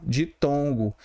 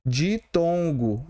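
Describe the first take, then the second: First: Said in the usual way. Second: Ditongo drawn out slowly with a rising end; teacher stretching ditongo slowly, rising; slow syllable demo. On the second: Shown as a demonstration. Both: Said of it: "Aqui é um".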